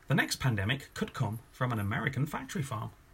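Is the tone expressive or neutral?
neutral. It is said in a flat, neutral tone.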